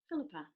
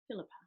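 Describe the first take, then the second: First: The name is said in a warm, kind voice. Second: The name is said in a flat, neutral voice. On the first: "How can you say your name in a kind way?" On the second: "say your own name with a neutral voice"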